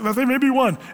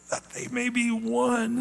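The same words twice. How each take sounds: First: It is said in a flat, matter-of-fact way. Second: It is said in an anguished, pleading way. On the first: A plain statement of a wish. The speaker calls it wrong. "It's not like" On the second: A desperate plea made in agony. The speaker calls it right. "he's kind of crying out ... almost in agony praying"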